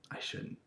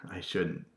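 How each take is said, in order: First: Much softer, almost whispered; hushed self-check; whispered restraint. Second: Softer, holding back; restrained self-check; hesitant. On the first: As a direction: barely say it, stopping a joke. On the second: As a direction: stop yourself mid-joke. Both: Real, not acted.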